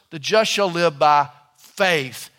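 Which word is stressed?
faith. The stress is on the word faith.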